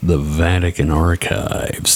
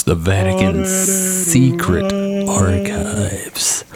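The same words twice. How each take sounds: First: Said in the usual way. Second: Slow, high, spooky announcement; ominous dramatic. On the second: Pretend. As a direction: say it like a dark mystery. Dramatic reveal of secret archives.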